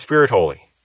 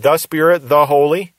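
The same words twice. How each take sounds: First: Said in the usual way. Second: Each "the" said as a full, emphasized "thuh"; stressed articles. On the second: Shown as a demonstration. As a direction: lean on each "the" before "Spirit" and "Holy". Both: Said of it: "if the thes are there or not".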